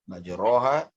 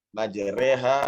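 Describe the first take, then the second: First: The vowel after the r is an open o. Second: The vowel after the r is an e. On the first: This is the ordinary Arabic reading. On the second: This is the special reading this verse calls for. "dia dilencengkan sedikit lidah ya menjadi majreha"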